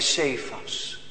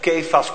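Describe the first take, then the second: First: The name begins with an s sound. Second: The name begins with a k sound.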